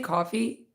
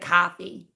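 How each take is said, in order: First: It is said in a plain, non-New York accent. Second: It is said in a nasal New York accent. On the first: "I say coffee" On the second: "it's like coffee"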